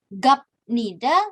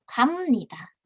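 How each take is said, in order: First: The final consonant is a plain b sound. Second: The final consonant is an m sound. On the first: The speaker calls it wrong. "Dibacanya bukan gapnida" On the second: The speaker calls it right. "biepnya dilafalkan menjadi miem"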